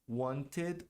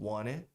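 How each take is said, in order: First: It is said without the American pronunciation. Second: It is said with the American pronunciation.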